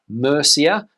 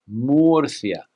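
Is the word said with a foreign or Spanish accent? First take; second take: foreign; Spanish. First: It is said with a foreign accent. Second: It is said with a Spanish accent. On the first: The speaker calls it wrong. "very few foreigners seem to get right" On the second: The speaker calls it right. "how would the Spanish pronounce this name?"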